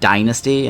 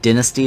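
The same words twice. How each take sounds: First: It is said with an American pronunciation. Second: It is said with a non-American pronunciation. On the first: "like an American thing to call it dynasty" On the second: "like some other pronunciation"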